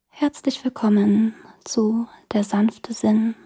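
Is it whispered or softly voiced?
softly voiced. It is spoken softly with voice.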